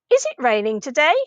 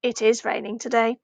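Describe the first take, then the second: First: "Is it raining today" rising on "today"; "Is it raining today" in an asking tone; question intonation. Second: "It is raining today" with no rise on "today"; "It is raining today" kept down at the end; statement intonation. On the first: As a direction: ask "Is it raining today" with the voice lifted at the end. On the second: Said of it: "the way we shape our voice". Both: Shown as a demonstration.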